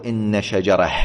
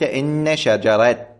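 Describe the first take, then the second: First: "شجرة" ending in h, shajarah; the form not used, with final ha; pausal ha ending. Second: "شجرة" ending in t, shajarat, slowly; final t kept. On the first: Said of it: "ولم يقل". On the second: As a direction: stop "شجرة" on a clear t. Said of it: "وقف عليها بالتاء". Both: Shown as a demonstration.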